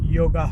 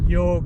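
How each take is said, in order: First: The word ends with an added final a vowel. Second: The word ends on the consonant g. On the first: The speaker calls it wrong. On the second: The speaker calls it right.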